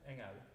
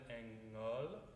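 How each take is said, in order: First: The final vowel is an open, forward e. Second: The final vowel sits back in the mouth. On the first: The speaker calls it right. "think them as an open e rather than an a" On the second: The speaker calls it wrong. "it gets a little too in the back"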